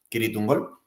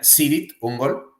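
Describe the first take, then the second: First: The first word begins with a K sound. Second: The first word begins with an S sound. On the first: The speaker calls it right. "la pronunciación correcta es con K" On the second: The speaker calls it wrong. "ellos, que son estadounidenses, pronuncian Sirit Ungol"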